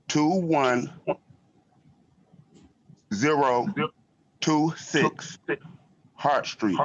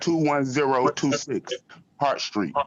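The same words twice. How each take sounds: First: It is said slowly. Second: It is said fast.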